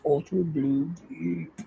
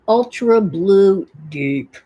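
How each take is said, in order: First: It is said in a deep voice. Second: It is said in a normal voice.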